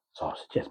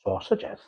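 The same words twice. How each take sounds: First: Said in the usual way. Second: High, loud, sing-song "sausages," in a mock Scottish-Welsh accent; playful faux Scottish-Welsh "sausages," pitched well up. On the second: Shown as a demonstration. Telling viewers how she says it to the dog, in a faux Scottish-Welsh accent. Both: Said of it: "You might have noticed that I say".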